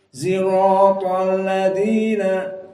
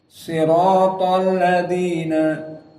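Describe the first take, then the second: First: The first sound is blended toward a z. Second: The first sound is an emphatic, heavy s. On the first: This is a third accepted reading. "al-ismam fi shad, yakni seperti zaid" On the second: This is the reading of the majority. "membaca shad"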